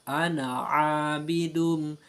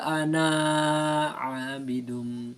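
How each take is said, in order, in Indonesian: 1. Vokal akhir dari ana itu pendek. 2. Vokal akhir dari ana itu panjang. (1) "dibaca pendek" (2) "tidak dibaca"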